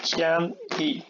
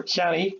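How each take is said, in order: First: "cean e" as two detached beats; split into syllables. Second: Said in the usual way. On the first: Shown as a demonstration. Teacher isolating the second syllable, "cean e" pulled apart. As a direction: hold "cean", brief break, then a separate "e". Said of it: "So the second syllable is this part". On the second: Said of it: "it's cean e".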